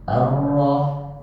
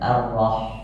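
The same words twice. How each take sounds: First: The r is trilled with many vibrations. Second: The r is trilled with a single vibration. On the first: The speaker calls it wrong. "membaca ro yang seperti ini, jadi takrirnya itu berlebihan" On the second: The speaker calls it right. "getarannya itu cuma sekali saja"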